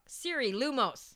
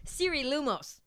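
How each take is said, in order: First: Slowly and clearly, for the phone; slow command. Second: Said in the usual way. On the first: Real, not acted. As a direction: spell it out slowly for Siri.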